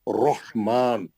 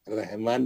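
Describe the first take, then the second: First: The r is pronounced heavy and full. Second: The r is pronounced thin and light. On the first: The speaker calls it right. "रा पे जब भी जबर आएगा, पेश आएगा, मोटा पड़ेगी" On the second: The speaker calls it wrong. "रहमान नहीं, रहमान भाई नहीं"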